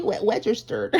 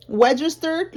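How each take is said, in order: First: Put-on soft baby-talk "registered" with w sound. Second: Put-on high, kid-like registered. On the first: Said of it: "I don't know, a baby". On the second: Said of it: "like a kid". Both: Shown as a demonstration.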